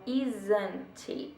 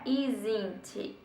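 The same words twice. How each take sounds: First: The middle vowel sounds somewhat like A. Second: The middle vowel does not sound like A. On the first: The speaker calls it right. "é com tipo um som de A no meio" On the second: The speaker calls it wrong. "Não é isn't"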